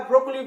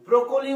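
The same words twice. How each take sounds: First: ব্রোকলি as two syllables, brok-li; no vowel between k and l in ব্রোকলি, brok-li; preferred pronunciation. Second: ব্রোকলি with a vowel after the k, bro-ko-li; alternative pronunciation. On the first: Teacher giving the form we use, preferred pronunciation. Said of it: "আমরা ব্রোকলি বলি". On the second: Teacher quoting how many people say it, alternative pronunciation. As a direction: say ব্রোকলি as three syllables, bro-ko-li. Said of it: "ব্রোকলি বলে অনেকে". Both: Shown as a demonstration.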